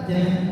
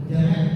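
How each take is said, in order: The two takes are said the same way.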